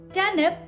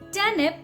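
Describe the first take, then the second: First: The R sound is silent. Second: The same.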